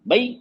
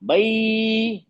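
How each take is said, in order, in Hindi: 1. स्वर को काटकर जल्दी बोला जाता है। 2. स्वर को बहुत देर तक खींचा जाता है। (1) "जल्दी पढ़ दिया।" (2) "लंबा खींच दिया मैंने"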